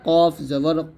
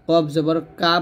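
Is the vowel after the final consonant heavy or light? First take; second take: heavy; light. First: The final vowel sounds heavy and rounded, like 'o'. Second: The final vowel sounds light and open, like 'a'. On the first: The speaker calls it right. "বলতে হবে" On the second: The speaker calls it wrong. "বলতে পারবেন না"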